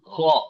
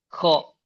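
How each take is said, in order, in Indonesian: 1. Bunyinya dibuat tinggi di tenggorokan. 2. Bunyinya dibuat di langit-langit. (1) "Kho itu di ujung tenggorokan, atas" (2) "Jadi sudah di langit-langit jatuhnya, bukan lagi di tenggorokan atas"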